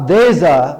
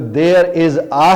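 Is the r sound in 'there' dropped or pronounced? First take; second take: dropped; pronounced. First: The r sound is dropped and the words run together. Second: The r sound is pronounced and each word is separate. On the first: "अंग्रेज बरतानिया वाला खास तौर पर आर की आवाज नहीं निकालता" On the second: "हमारे यहां"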